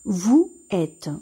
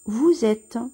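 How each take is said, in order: First: The two words are said without a z link. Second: A z sound links the two words. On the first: The speaker calls it wrong. "ما ماشيش نطقوها بهذه الطريقة لأن خاصنا ضروري نصوبوا لا ليزون" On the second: The speaker calls it right. "غادي نطقوه ز"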